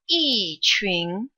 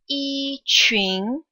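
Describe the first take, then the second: First: Yi has a falling pitch. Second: Yi has a high, level pitch.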